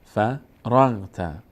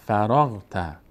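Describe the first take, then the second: First: "فرغت" split into fa, ragh, ta with clear gaps; syllable by syllable. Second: "فرغت" run together as fa-ragh-ta; syllables joined. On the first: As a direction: slowly sound out "فرغت" in separate syllables. Teacher spells out syllable by syllable. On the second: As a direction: blend "فرغت" into one word. Teacher then joins the syllables. («فرغت» سرهم و پیوسته) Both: Shown as a demonstration.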